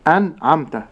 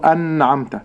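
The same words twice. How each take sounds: First: أنعمت with an undoubled n, no long hum; clear short nun. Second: أنعمت with a long, stressed nn; doubled nun. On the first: Sheikh modelling correct أنعمت, short clear nun. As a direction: release the n cleanly in أنعمت. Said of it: "ليست بغنة واضحة". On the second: Sheikh showing the error, a doubled nun in أنعمت. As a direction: press and hold the n in أنعمت. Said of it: "ولكن لا أشددها". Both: Shown as a demonstration.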